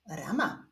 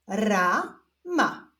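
First: Said in the usual way. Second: Stretched first syllable, pause, then second; drawn-out, divided syllables; syllable reading. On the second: Shown as a demonstration. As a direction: read it slowly as two separate syllables. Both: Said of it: "zapraszam Was do odczytywania sylab".

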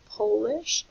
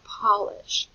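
First: POLISH as poh-lish, like Poland; slow POLISH with a long oh. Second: POLISH as pah-lish, like furniture polish; slow POLISH with a short ah. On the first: Teacher asking about the teacher's background, long-O pronunciation. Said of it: "like from Poland". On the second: Teacher offering the other choice, short-vowel pronunciation. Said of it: "like the furniture polish". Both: Shown as a demonstration.

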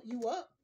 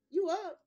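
First: Said in the usual way. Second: Louder and higher, driving the point home; emphatic repeat. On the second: Real, not acted. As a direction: say it again, punchier.

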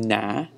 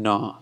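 First: "na" with a flat English "nah" vowel; wrong vowel. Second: "na" with an open "aw" vowel; correct na sound. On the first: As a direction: say "na" as the casual English no. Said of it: "we're not saying na". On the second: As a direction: say "na" like n plus "ah". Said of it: "but we're saying na". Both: Shown as a demonstration.

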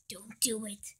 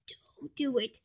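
First: Said in the usual way. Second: Whispered, voiceless. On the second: Acted. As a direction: breathe it as a whisper.

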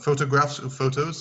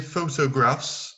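First: Said in the usual way. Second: Photographs said slowly and carefully; photographs modelled. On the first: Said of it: "c'est bon". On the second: Shown as a demonstration. Teacher gives the full word photographs, slow and careful. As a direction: spell out photographs with the voice. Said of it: "c'est le nom complet".

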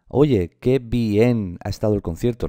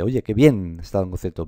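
First: Bien split into bi-en within the sentence; wrong two-syllable bien. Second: Bien in one beat within the sentence; one-syllable bien. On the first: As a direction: break bien into two beats, BI-EN. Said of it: "no se dice bien". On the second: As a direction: say bien as a single glide, byen. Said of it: "Se pronuncia con un solo golpe de voz". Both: Shown as a demonstration.

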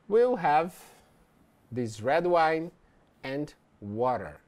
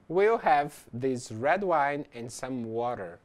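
First: Broken into short chunks with pauses between them; chunked with pauses. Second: Slow, even read in one smooth phrase; slow model sentence. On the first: Teacher replaying an order for students, chunk by chunk with pauses. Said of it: "Então, ele disse". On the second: Teacher models a restaurant order for students, slowly and smoothly. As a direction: say "We'll have this red wine and some water" slowly and smoothly as one unbroken phrase. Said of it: "nós temos aqui o exemplo". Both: Shown as a demonstration.

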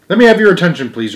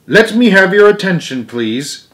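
First: Raised teacher voice, said again; repeating the call to order. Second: Raised commanding teacher voice; Stuart addressing the class. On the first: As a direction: insist on attention, up high. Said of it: "repeated Stuart". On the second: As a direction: call the class to order, up high. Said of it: "and said". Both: A narrator's reading.

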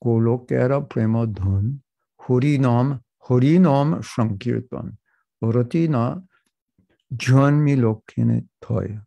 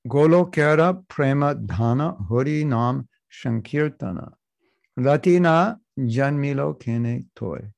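First: Bengali-accented chant, a rounded to o, "hori nom". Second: "Golokera prema dhana" with open a vowels; Sanskrit-style reading. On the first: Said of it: "if you're Bengali, you have to say". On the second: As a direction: read "Golokera prema dhana" with a sounds, not Bengali o. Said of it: "you have to say". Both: Shown as a demonstration.

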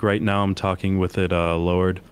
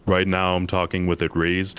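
First: Talking with the soft palate dropped; soft palate lowered. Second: More resonant, with the palate lifted; soft palate raised. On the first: Showing listeners a lowered soft palate. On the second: Showing listeners the raised palate, more resonant. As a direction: open up the back of the mouth. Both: Shown as a demonstration.

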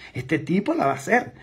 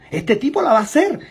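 First: Said in the usual way. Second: Higher, louder burst of conviction; excited exclamation. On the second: Retold or imitated. Prospect convinced, exclaiming that the salesman will succeed. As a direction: shout it out, now fully sold. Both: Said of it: "esa persona diga".

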